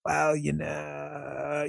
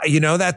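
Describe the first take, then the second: First: Slow, soft, creaky vocal fry. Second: Said in the usual way. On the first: Shown as a demonstration. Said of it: "Here's the Queen of Vocal Fry". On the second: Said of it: "the Queen of Vocal Fry".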